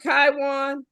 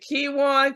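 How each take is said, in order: First: The first syllable sounds like 'tie'. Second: The first syllable sounds like 'key'. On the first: The speaker calls it right. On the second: The speaker calls it wrong.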